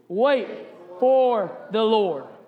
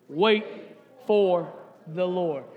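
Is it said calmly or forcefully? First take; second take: forcefully; calmly. First: It is said forcefully, with strong energy. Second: It is said in a calm, plain way.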